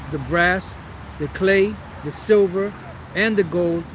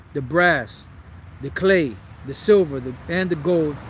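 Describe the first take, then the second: No difference in how they are said.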